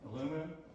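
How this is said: It is said the American way, aluminum.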